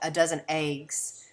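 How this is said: The vowel in eggs sounds like ay. "in particular dialects such as Southern English, um, you might hear more people pronounce it"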